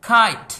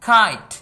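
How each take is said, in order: The two takes are said the same way.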